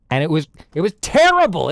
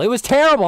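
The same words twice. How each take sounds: First: Said in the usual way. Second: Higher, louder angry repeat of terrible; angry emphasis. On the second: Real, not acted. Streamer ranting about his bad pizza, angry. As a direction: hit terrible hard in disgust. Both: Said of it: "I was so angry".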